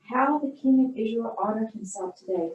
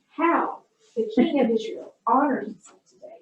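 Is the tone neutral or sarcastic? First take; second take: neutral; sarcastic. First: It is read in a plain, neutral tone. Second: It is read with heavy, dripping sarcasm.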